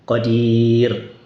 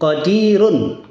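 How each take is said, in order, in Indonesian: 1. Kata ini diakhiri tanpa bunyi n. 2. Kata ini diakhiri dengan bunyi n tambahan.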